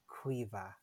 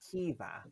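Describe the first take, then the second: First: The name begins with a 'kw' sound. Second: The name begins with a plain 'k' sound. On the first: "our C's are pronounced qu" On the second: "Some girls pronounce it Kiva"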